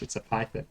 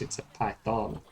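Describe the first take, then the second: First: It is said in an Australian accent. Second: It is said in an American accent.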